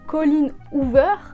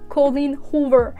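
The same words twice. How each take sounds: First: The name is said with a French accent. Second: The name is said with an American accent. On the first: The name is said the French way, though the author is not French. The speaker calls it wrong. "je vois pas pourquoi je le dirais à la française" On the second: The author is American, so her name is said the American way. The speaker calls it right. "je prends un accent"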